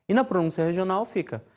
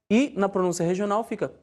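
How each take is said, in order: The two takes are said the same way.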